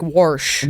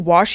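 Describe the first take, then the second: First: The word is said with an r sound. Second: The word is said without an r sound. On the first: This is how an older relative says it. "he'd be like warsh" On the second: This is the usual way to say it. "he wouldn't say wash"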